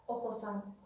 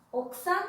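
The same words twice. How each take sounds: First: "okosan" with the second O sounded, falling; okosan con o clara. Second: "Okusan" as "oksan", higher and louder, rising; okusan con u muda. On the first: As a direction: contrast "okosan" in three beats, o-ko-san. ("okosan" con la segunda o clara, cayendo) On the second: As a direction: contrast "Okusan" with the U dropped. ("Okusan" como "oksan", más agudo y fuerte) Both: Shown as a demonstration. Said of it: "¿Notan la diferencia?".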